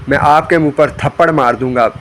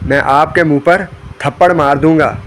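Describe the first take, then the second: No difference in how they are said.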